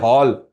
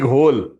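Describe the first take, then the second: First: The vowel is an open 'aw' sound. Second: The vowel is a closed rounded 'oh' sound. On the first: The speaker calls it right. "it is hall. H A L L, hall, not hole" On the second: The speaker calls it wrong. "we Gujaratis speak all the language in Gujarati"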